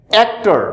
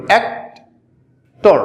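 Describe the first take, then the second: First: Said in the usual way. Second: অ্যাক্টর very slowly, broken in two as অ্যাক্ … টর; split into syllables. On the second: Shown as a demonstration. Teacher showing students the two syllables, অ্যাক্টর split slowly. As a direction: pull অ্যাক্টর apart with a long gap before টর. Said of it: "অ্যাক্টর বানানে দুইটা syllable".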